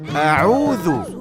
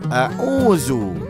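First: The middle consonant is a soft 'th' sound. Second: The middle consonant is a 'z' sound. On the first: The speaker calls it right. "A'udhu bukan a'uzu" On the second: The speaker calls it wrong. "bukan a'uzu"

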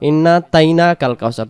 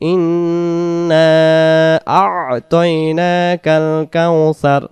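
First: Two letters before 'taina' are dropped, said hastily. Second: The syllable before 'taina' is clearly kept. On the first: The speaker calls it wrong. "তাড়াহুড়া করে বলার কারণে আমাদের হয়ে যায়" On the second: The speaker calls it right. "দুই অক্ষরকে আদি করব আমরা আ'তাইনা"

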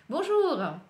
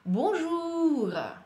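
First: It is quicker, with a natural everyday tune. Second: It is slow, with sounds stretched and exaggerated. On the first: "давайте побыстрее, пытаюсь немножко естественнее произнести" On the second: "утрирую, немножко делаю акцент на звуки ... Вытягиваю сильней"

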